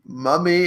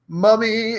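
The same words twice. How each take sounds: First: Said in the usual way. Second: MOMMY higher and more heartfelt; hammed-up earnest cry of MOMMY; said like meaning it. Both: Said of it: "Say it like you mean it".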